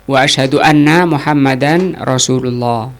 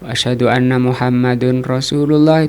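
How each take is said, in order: First: The name ends with an 'an' sound. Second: The name ends with an 'un' sound. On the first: The speaker calls it right. "Ini Muhammadan" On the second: The speaker calls it wrong. "dibaca Muhammadun ... itu juga salah"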